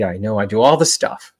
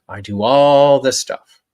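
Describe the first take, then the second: First: Said in the usual way. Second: "all" stretched slow, higher and louder; stress on all. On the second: Shown as a demonstration. Coach admitting her own habits to viewers, leaning slowly on "all". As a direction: lean hard and slow on "all" in "I do all the stuff".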